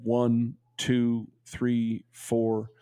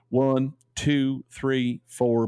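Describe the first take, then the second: First: Said in the usual way. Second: A light put-on accent of the letter writer, counting slowly; reading the friend's letter aloud in a gentle borrowed accent; Gary's accent. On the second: Shown as a demonstration. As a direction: count the numbers in his lilting accent, lightly done. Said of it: "I like reading this in his accent".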